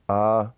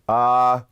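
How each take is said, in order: First: The sound is said softly. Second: The sound is said loudly.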